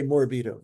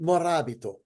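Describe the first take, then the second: First: No vowel is sounded between r and b. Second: A vowel is sounded between r and b. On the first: This is how Americans would say the name. "Americans would say morbito" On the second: This is the Italian way of saying the name. "If you're going to do it, say morabito. There's an A in there"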